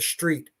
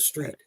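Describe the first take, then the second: First: The word begins with a 'sh' sound. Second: The word begins with a plain 's' sound. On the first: This is the new trendy pronunciation. "putting an S H T, like uh, you're walking down the street" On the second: This is the usual older pronunciation. "not the street"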